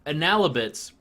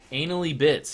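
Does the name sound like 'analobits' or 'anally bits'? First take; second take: analobits; anally bits. First: It is said as one word, analobits. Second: It is said as two words, anally bits. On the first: It suggests analysis and little gaming bits. The speaker calls it right. "When you say the word analobits, it sounds cool" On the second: It reads as a crude joke. The speaker calls it wrong. "on paper, it looks like uh, anally bits"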